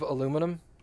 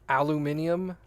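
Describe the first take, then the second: First: It is said the American way, with four syllables. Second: It is said the British way, with five syllables.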